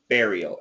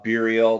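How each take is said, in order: First: The stress is on the first syllable. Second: The stress is not on the first syllable. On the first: The speaker calls it right. "the intonation is on the first syllable" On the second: The speaker calls it wrong. "some people do say burial, uh, burial, but don't"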